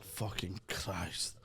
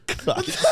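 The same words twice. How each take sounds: First: Low, slow muttered curse; weary, slow mock despair. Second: Breathless laugh through the word; real giggling fit on the word. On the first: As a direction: drag it out, low and quiet. Re-enacting his own text. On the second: Real, not acted. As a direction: squeal it out laughing. Laughing while quoting himself.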